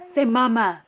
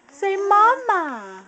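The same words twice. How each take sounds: First: Said in the usual way. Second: MAMA drawn out higher and slower, stressed; coaxing mama. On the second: Shown as a demonstration. Mom modeling the word for her toddler, slow high coaxing.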